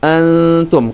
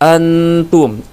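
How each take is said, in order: First: The n is hidden, nasal and held longer. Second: The n is said plainly and distinctly. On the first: The speaker calls it right. "tapi antum" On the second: The speaker calls it wrong. "tidak jelas artinya teman-teman, tidak seperti antum"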